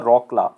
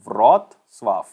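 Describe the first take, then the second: First: It starts with R and sounds like rockla. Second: It starts with V and sounds like vrotslav. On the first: The speaker calls it wrong. "इसको ऐसे नहीं बोला जाता रॉकला" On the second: The speaker calls it right. "इसको बोला जाता है व्रोत्स्लाव"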